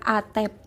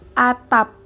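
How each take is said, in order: First: The second vowel is an 'e' sound. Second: The second vowel is an 'a' sound. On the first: This is a nonstandard spoken form. The speaker calls it wrong. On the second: This is the standard spoken form. The speaker calls it right. "penggunaan lafal baku dalam ragam lisan"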